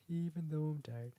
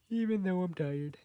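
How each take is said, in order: First: Said in the usual way. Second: Mock voice, repeated for fun; put-on high voice. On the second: Shown as a demonstration. Repeating the line to herself in a high put-on voice.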